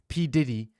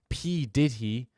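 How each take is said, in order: First: The phrase is said fast, words run together. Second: The phrase is said slowly, words kept separate.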